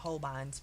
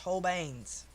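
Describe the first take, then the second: First: The last syllable sounds like 'bine'. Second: The last syllable sounds like 'bane'. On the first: The speaker calls it wrong. "I call them Holbeins" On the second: The speaker calls it right. "but they are pronounced Holbeins"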